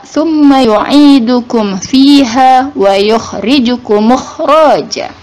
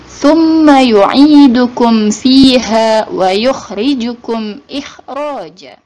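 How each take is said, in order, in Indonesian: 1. Hamzah sebelum ikhraja dihilangkan. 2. Hamzah sebelum ikhraja dibaca. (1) "Jadi tidak dibaca" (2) "tapi dibacanya"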